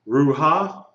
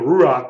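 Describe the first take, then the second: First: The word ends on a vowel after the h sound. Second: The vowel comes before the final guttural sound. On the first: The speaker calls it wrong. "it's not ruha? Why isn't it ruha?" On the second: The speaker calls it right. "You pronounce the vowel first"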